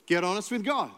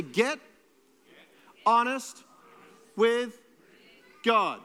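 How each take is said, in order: First: Said in the usual way. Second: Each word spaced out and louder; slow call and response. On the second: Shown as a demonstration. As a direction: lead the congregation word by word. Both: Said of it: "Everybody say".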